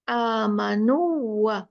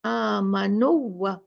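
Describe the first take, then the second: First: The long vowel is cut short and merged. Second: The same.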